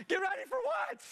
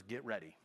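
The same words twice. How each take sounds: First: Very high, panicked shouted question; re-enacted squawk of alarm; freaking out. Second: Low, soft murmur, voiced; hushed, intimate retold whisper; whispered prompt. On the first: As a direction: throw it back in frantic disbelief. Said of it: "I'm freaking out". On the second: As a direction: drop low and quiet, as if God whispers. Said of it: "And he whispers".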